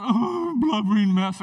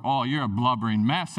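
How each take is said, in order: First: A hammed-up sob, louder; mock blubbering. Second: Said in the usual way. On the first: Pastor acts out crying in front of mom, hammed-up sob. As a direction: fake a teary breakdown.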